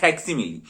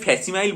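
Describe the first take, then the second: First: The word ends with a 'milly' sound. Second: The word ends with a 'mile' sound. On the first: The speaker calls it right. "উচ্চারণ হচ্ছে ফ্যাক্সিমিলি" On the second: The speaker calls it wrong. "আমি ফ্যাসিমাইল বলে ফেলতাম অনেক সময়"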